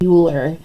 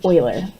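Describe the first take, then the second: First: It starts with a "yoo" sound, like Bueller. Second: It starts with an "oy" sound, like oil. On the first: The speaker calls it wrong. "not Euler. Not Ferris Bueller" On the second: The speaker calls it right. "that word is pronounced like oil"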